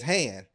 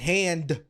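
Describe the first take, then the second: First: The final d sound is dropped. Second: The final d sound is pronounced. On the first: "it's just hand. You you uh you eliminate that last consonant" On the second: "Instead of saying hand"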